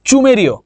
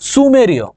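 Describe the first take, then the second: First: The word begins with a 'ch' sound. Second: The word begins with an 's' sound. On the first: The speaker calls it wrong. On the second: The speaker calls it right.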